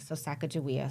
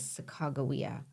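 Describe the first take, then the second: First: The middle consonant is a J sound. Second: The middle consonant is a G sound. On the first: This is how her own people say it. "in Shoshone way, uh, we reference her with the J spelling" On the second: This is the officially adopted form. "they they actually chose the G"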